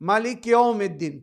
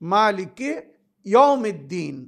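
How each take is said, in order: First: It is recited quickly and hurried. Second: It is recited slowly and carefully. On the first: The speaker calls it wrong. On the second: The speaker calls it right.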